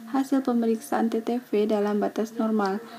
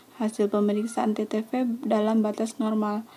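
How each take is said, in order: The two takes are said the same way.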